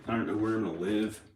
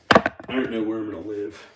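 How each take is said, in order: First: Said in the usual way. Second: Repeated louder; emphatic louder repeat. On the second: Real, not acted. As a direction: say it again with more force.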